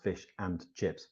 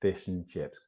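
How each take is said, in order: First: "and" fully sounded with its d; full and. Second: "and" shrunk to a syllabic n; reduced and. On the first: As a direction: separate "fish and chips", pronouncing all of "and". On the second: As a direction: link it as "fish'n chips". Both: Shown as a demonstration. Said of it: "is never pronounced fish and chips".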